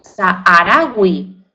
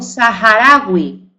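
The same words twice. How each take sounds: First: The h is silent, not pronounced at all. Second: The h is pronounced as a breathy aspirated sound. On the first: The speaker calls it wrong. "no digo saharaui" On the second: The speaker calls it right. "digo saharaui porque es un vocablo árabe. Ahí la aspiro, no es muda"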